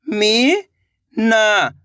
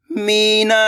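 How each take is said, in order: First: Meena drawn out very slowly, each sound held. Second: Said in the usual way. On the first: Shown as a demonstration. (Meena को बहुत धीरे खींचकर बोलें) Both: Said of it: "तो मिलके बन जाएगा".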